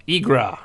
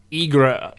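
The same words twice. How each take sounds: First: Igra said again as IG-rah, ending on an open ah; corrected name. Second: Igra said as IG-ruh, ending on a short weak uh; first try at the name. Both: Shown as a demonstration.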